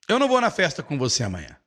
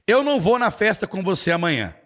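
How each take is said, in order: First: "não" lightly stressed, said quick. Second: "eu" stressed at the start. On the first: Teacher demoing a quick denial, stressing não. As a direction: hit "não", rush the rest. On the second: Teacher demoing stress on the subject, stressing eu. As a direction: open with a lifted "eu" and fall. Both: Shown as a demonstration. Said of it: "Olha como é que di-, é diferente".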